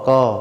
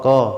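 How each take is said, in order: Both takes have the same delivery.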